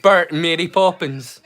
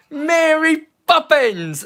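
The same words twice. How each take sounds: First: Said in the usual way. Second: Mary Poppins stretched slow, much higher, in a bad British accent; mock bad movie British accent, drawn-out Mary Poppins. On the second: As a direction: ham up a terrible film British accent, drawn out. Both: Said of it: "That's such a bad British accent".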